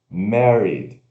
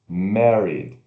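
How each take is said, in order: The two takes are said the same way.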